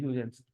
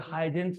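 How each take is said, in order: First: It begins without an h sound, 'yoo'. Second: It begins with an h sound, 'high'. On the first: The speaker calls it right. "ये इसको यूजेंस बोलते हैं" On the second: The speaker calls it wrong. "ये हाइजेंस नहीं है"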